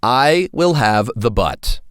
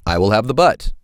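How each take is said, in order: First: "will" leaned on, slowed; stress on will. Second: Said in the usual way. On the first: Shown as a demonstration. Teacher has class repeat, stress on will. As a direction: stress "will" in "I will have the butt". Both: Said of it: "Say it with me".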